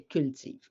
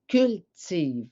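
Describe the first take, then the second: First: Said in the usual way. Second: CULTIVE slowly in two beats, cul... tive; slow, separated "cul / tive" for reading; split into syllables. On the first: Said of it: "si je colle les deux syllabes". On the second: Shown as a demonstration. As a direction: stretch "cultive" with a gap after "cul". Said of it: "Si je donne les sons".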